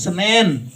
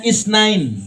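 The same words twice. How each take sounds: First: "Senin" said the local way, reduced from Isnain; Indonesian pronunciation. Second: "Isnain" said the Arabic way, ending in -ain; arabische Aussprache. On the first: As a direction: localise the Arabic day as "Senin". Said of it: "Orang kita nggak bisa ngomong". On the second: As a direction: pronounce "Isnain" as Arabs do. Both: Shown as a demonstration.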